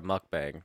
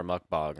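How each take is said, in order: First: Mukbang with the a of cat, muck-bang; pronunciation. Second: Mukbang with the a of father, muck-bong; pronunciation. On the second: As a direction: say mukbang rhyming with long. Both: Shown as a demonstration. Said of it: "or however you say that".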